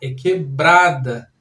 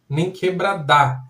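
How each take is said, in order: First: The stress is on the middle syllable. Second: The stress is on the last syllable. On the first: The speaker calls it right. "O brá é a tônica dessa palavra" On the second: The speaker calls it wrong.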